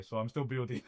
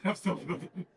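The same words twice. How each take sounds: First: Said in the usual way. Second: Laughing. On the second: Real, not acted.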